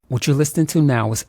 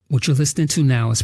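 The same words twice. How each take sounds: First: The audio is raw, with no processing applied. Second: The audio has processing applied after recording. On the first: "unprocessed audio from the Audio-Technica A T forty forty" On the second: "processed audio from the Audio-Technica A T forty forty"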